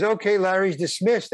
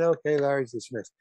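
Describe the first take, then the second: First: Mock announcement. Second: Understated announcement. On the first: Director dismissing the actor after his scene, mock announcement. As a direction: lightly imitate calling a wrap, pitched up. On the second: Retold or imitated. Director dismissing the actor once it's over, understated announcement. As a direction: repeat the dismissal casually, close to usual voice. Same announcement repeated, toned down.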